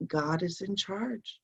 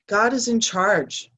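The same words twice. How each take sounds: First: Said in the usual way. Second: Each word of God is in charge slow and weighted; slow emphatic repeat. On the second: Shown as a demonstration. Repeating the card message to viewers, slow and emphatic.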